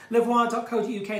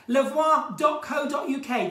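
First: Said in the usual way. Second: Loud, slowed call of the web address; shouted plug. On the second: Real, not acted. Host announces the calendar website to viewers, loud and slow.

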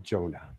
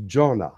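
First: Jonah said JOH-nah, long O; alternative name pronunciation. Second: Jonah said JAW-nah, open first vowel; name pronunciation. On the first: Channeler allowing the host's version of the name, Jonah as JOH-nah. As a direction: say Jonah with a long O in the first syllable. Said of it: "you might pro-, pronounce it Jonah". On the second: Channeler correcting the host on a questioner's name, Jonah as JAW-nah. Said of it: "I think her name is pronounced". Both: Shown as a demonstration.

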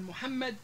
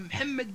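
First: Said in the usual way. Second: محمد as mhammed; unvowelled first consonant. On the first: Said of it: "بدل من محمد". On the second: Shown as a demonstration. Teacher showing Libyan form, محمد as mhammed. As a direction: say محمد with m straight into h. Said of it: "إسكان الحرف الأول".

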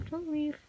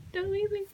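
First: Said in the usual way. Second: Higher, more desperate plea; pleading higher. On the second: Real, not acted. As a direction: LEAVE lifted higher in a plea.

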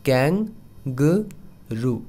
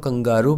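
First: कैंगरू stretched, KANG-groo; correct pronunciation, very slow. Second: कंगारू with a long aa, kan-GAA-roo; the mistaken कंगारू; wrong pronunciation. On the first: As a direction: drag out कैंगरू slowly. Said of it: "correct pronunciation नीचे आप देख सकते हैं". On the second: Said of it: "बिल्कुल गलत है". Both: Shown as a demonstration.

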